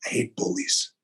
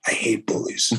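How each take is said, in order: First: Hushed, unvoiced first take; intense whisper. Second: Firmer whisper. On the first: Whispering to the host that he hates bullies. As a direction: whisper it through clenched conviction. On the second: Repeating to the host, a stronger whisper. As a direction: press the words out in a hard whisper. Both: Real, not acted.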